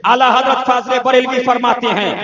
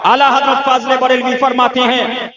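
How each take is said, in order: Both takes have the same delivery.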